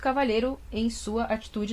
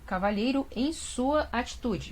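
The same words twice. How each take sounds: First: The phrase is spoken quickly. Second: The phrase is spoken slowly and carefully.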